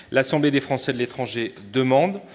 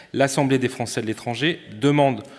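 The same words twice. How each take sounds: No difference in how they are said.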